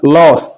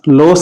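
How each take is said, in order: First: The vowel is said with a wide-open mouth. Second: The vowel is said with a narrower mouth. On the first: The speaker calls it right. "मुंह खोलेंगे जरा" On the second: The speaker calls it wrong. "लॉस नहीं"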